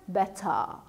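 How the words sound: A clear t, with the ending like "a". "O britânico... o T é realmente pronunciado como T e o E R fica como A"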